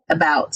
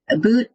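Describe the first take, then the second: First: "about" with an open ow vowel, a-BOWT; American about. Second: "About" with an oo vowel, like a-BOOT; Canadian about. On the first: Comparing giveaway words, "about" as a-BOWT. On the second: Comparing giveaway words, "About" as a-BOOT. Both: Shown as a demonstration. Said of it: "All of us Americans run around saying about".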